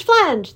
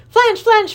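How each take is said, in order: First: Flange yelled loud and falling away; yelled flange, falling at the end; king yelling. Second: Flange, flange yelled high with a rising peak; yelled flange, flange, high and loud; king yelling. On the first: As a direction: drop flange down as the yell ends. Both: Acted. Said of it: "the king yelled at the top of his voice".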